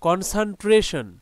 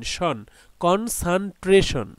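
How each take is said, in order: First: Said in the usual way. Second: Slow "শন", then "কন-সান-ট্রেশন" in spaced parts; teacher's measured blend of "কনসানট্রেশন", syllable by syllable; divided into syllables. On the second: Shown as a demonstration. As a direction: break "কনসানট্রেশন" into clear syllables, slowly. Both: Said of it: "এটাকে ভাগ করি".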